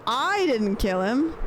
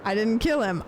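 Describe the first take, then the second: First: "I" punched, slow and rising; slower, stressing "I" over "kill". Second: "kill" punched, falling at the end; a flat "I didn't", then a firm "kill"; stress on kill. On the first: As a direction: lean on "I" as if blaming someone else. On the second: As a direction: hit the word "kill" hard. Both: Shown as a demonstration. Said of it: "where you put the emphasis".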